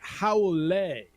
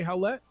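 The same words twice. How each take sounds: First: The name is pronounced with a French-like sound. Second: The name is pronounced like a plain English word. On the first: The speaker calls it right. "Pronunciation kind of like a French thing" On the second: The speaker calls it wrong. "Would you say Howlett?"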